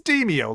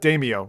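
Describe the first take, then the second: First: The first syllable sounds like 'demons'. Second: The first syllable sounds like 'Damo'. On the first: The speaker calls it right. "This is how you pronounce it. It's Demio, like demons" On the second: The speaker calls it wrong. "because I used to call it Damio, or like, yeah, like uh, like Damo"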